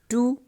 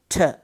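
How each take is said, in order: First: The word has a full long oo vowel. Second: The word has a short reduced schwa vowel. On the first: It is used before a vowel sound. "strong form ... long vowel sound two" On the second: It is used before a consonant sound. "reduce it uh, to shava"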